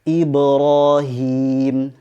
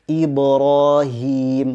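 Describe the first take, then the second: No difference in how they are said.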